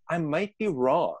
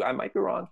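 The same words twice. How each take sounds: First: Said in the usual way. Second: Higher, lightly voiced parrot repeat; mock parrot. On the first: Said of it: "but then acknowledge". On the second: Inner parrot repeating the mantra, in a mock parrot voice. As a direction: parrot it right back, playful and light. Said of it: "your parrot will repeat that too".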